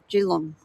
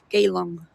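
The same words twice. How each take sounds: First: The first vowel is barely pronounced. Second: The first vowel is clearly pronounced. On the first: The speaker calls it right. "You sort of don't pronounce the E" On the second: The speaker calls it wrong. "people say"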